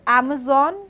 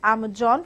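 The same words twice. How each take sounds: First: The middle consonant is a z sound. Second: The middle consonant is a j sound.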